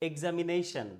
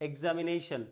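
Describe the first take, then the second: Both takes have the same delivery.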